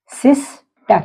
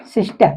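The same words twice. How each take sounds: First: सिस्टर split into sis-ter; teacher models सिस्टर in two clear beats; model word sister. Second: Said in the usual way. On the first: Shown as a demonstration. Teacher to class, modelling a two-syllable word. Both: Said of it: "जैसे".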